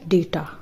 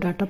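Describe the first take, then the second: First: The first vowel sounds like 'ay'. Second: The first vowel sounds like 'ah'. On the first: The speaker calls it right. "इसका सही pronunciation होगा डेटा" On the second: The speaker calls it wrong. "अगर आप इसको डाटा pronounce करते हो तो वो गलत है"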